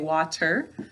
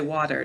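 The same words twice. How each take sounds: First: The middle consonant is a crisp, clear t. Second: The middle consonant sounds soft, like a d. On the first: The speaker calls it right. "I'll make sure I say water though" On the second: The speaker calls it wrong. "sometimes people say water. Don't say that"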